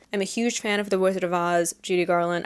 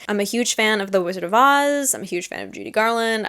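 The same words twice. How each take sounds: First: A light New Jersey accent slipping in; an accidental, mild New Jersey accent. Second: Said in the usual way. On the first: Real, not acted. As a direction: say it with a hint of New Jersey vowels. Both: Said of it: "I said that with, like, a New Jersey accent".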